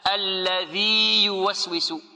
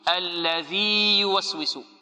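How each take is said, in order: No difference in how they are said.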